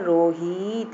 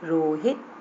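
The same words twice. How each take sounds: First: The second vowel is drawn out long. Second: The second vowel is said short and quick. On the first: The speaker calls it wrong. "ये बड़ी की मात्रा हो रही है" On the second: The speaker calls it right. "हाँ पर छोटी की मात्रा होगी"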